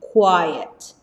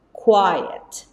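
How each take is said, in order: Both takes have the same delivery.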